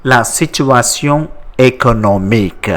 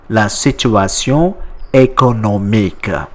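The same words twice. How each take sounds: The two takes are said the same way.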